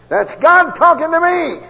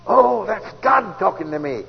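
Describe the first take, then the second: First: God stressed high and loud, slow; preached out, high and loud; louder, higher slow repeat. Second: Said in the usual way. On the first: Shown as a demonstration. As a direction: ring it out like a preacher's climax.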